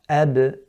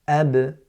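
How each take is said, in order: The two takes are said the same way.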